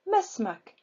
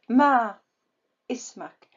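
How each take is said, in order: First: The two words run together without a glottal stop. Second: A glottal stop separates the two words. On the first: The speaker calls it right. "without pronouncing Hamza" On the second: The speaker calls it wrong. "I did not say Ma Ismak"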